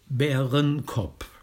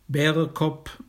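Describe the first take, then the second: First: There is an n sound before kopp. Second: There is no n sound before kopp. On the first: This mixes a standard German form into the dialect. The speaker calls it wrong. "aber nicht Bärenkopp. Da ist ein hochdeutscher Begriff drin" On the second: This is the pure dialect form. The speaker calls it right. "Bärekopp ist ein Ausdruck für einen Wanderweg"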